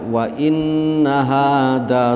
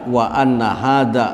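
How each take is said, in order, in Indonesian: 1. Partikel itu diucapkan dengan vokal 'i'. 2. Partikel itu diucapkan dengan vokal 'a'. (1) "Imam Hamzah sareng Imam Kisai macana wa inna hada sirati mustaqima" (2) "kabeh macana wa anna"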